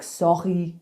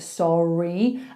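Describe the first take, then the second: First: The r is made at the back of the throat. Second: The r is made in the mouth, English style. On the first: "He does his R's from here. So he might say something like sorry" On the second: "instead of sorry"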